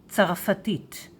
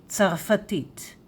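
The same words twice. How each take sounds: The two takes are said the same way.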